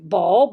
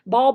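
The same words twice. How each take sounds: First: The word is said with a lively, changed voice. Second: The word is said flat and monotone. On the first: The speaker calls it right. "That's different" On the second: The speaker calls it wrong. "ball is boring"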